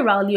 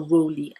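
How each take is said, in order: First: Rowley offered as one way of saying it; first pronunciation option. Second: Rowley offered as the other way of saying it; alternative pronunciation. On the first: Weighing up how to say a lodger's name, first pronunciation option. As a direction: say Rowley with the first syllable rhyming with cow. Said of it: "Is it Rowley or Rowley?". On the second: Weighing up how to say a lodger's name, alternative pronunciation. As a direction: say Rowley with a different first vowel, not rhyming with cow. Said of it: "I think it's Rowley". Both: Shown as a demonstration.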